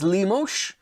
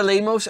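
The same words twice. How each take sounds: First: Lemos ending in a "sh" sound; corrected pronunciation. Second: Said in the usual way. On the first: Real, not acted. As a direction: say Lemos as "LEE-moesh". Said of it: "saying that like a Dutch person". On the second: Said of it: "I think it's Lemos".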